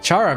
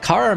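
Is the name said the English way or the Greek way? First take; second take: English; Greek. First: The name is said the English way. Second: The name is said the original Greek way. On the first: "because that's the uh, English pronunciation" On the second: "because it's the uh, original Greek pronunciation"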